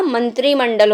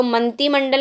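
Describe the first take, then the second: First: मंत्रिमंडल said as man-tri-man-dal, with a clear tr; correct form demo. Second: मंत्रिमंडल said as man-ti-man-dal, with no r after t; wrong form demo. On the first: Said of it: "मंत्रिमंडल होता है". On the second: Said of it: "मंत्रिमंडल नहीं होता". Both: Shown as a demonstration.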